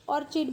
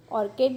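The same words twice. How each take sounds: First: ऑर्चिड with a ch sound; ऑर्चिड, ch as in chin; ch pronunciation. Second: ऑर्किड with a hard k; ऑर्किड, k sound in the middle; k pronunciation. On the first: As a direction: say ऑर्चिड as "OR-chid". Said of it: "कुछ लोग ऑर्चिड बोलते हैं". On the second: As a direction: say ऑर्किड as "OR-kid". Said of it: "भी बोलते हैं कुछ लोग". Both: Shown as a demonstration.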